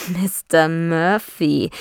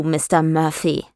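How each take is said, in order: First: Slow mocking echo of "Mister Murphy". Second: Said in the usual way. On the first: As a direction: drag out "Mister Murphy" in mockery. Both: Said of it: "sagte er spöttisch".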